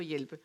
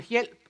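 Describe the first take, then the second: First: Said in the usual way. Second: Hjælp with no ending, one syllable; Jutlandic dialect form. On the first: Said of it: "i stedet for hjælpe". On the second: Shown as a demonstration. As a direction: dialect hjælp, final e cut off. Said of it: "det hedder hjælp".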